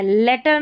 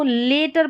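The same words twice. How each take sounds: First: लेटर with a short "e", as in "letter"; mispronunciation. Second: लेटर with a long "ay", as in "later"; correct pronunciation. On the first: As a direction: show the wrong short-vowel लेटर. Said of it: "लेटर नहीं पढ़ेंगे". (गलत, छोटी ए वाला "लेटर") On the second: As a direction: model लेटर with a long first vowel. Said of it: "इसको लेटर पढ़ना है". ("लेटर" में लंबी ए की आवाज़) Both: Shown as a demonstration.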